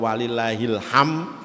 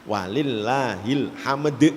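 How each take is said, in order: First: The final d sound is dropped. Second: The final d sound is clearly pronounced. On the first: The speaker calls it wrong. "tidak ada dalnya" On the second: The speaker calls it right. "itu bacanya"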